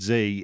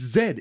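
First: The letter is pronounced 'zee'. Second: The letter is pronounced 'zed'. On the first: The speaker calls it wrong. "she hates the American" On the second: The speaker calls it right. "I hate the fucking Americanism. It's Z"

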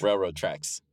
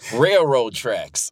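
First: It is said in a standard American accent. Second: It is said in a Southern American accent. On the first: "You got it" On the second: "It's like a Southern accent"

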